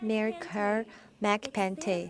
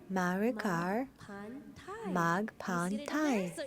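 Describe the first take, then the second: First: The last syllable sounds like 'tay' in Taylor. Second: The last syllable sounds like 'Thai' in Thailand. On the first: The speaker calls it wrong. "Ce n'est pas Mary Carr McPante" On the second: The speaker calls it right. "c'est Thai comme Thaïlande"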